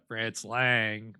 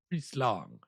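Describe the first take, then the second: First: The name is said with an American accent. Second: The name is said with a German accent. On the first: "Really make myself sound American" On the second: "you're gonna say it with a German accent"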